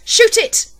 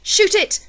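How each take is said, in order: First: Even higher and louder frantic yell. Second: Much higher, louder desperate command; yelled. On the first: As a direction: scream the order at full force. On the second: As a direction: yell at the gunman to fire. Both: A narrator's reading. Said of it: "when I yelled".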